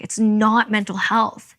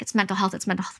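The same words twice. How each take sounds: First: Slow, heavy stress on "not"; drawn-out insistent "not", every word slowed. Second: Said in the usual way. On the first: Retold or imitated. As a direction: lean hard on "not" in "It's not mental health". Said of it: "We're like". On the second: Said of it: "They're like".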